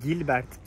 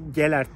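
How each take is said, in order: First: The name is said with a 'b', as Gilbert. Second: The name is said without a 'b', as Gelert. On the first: The speaker calls it wrong. "Gilbert diye bahsettiğim" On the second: The speaker calls it right. "aslında Gelert Tepesi olduğunu öğrendim"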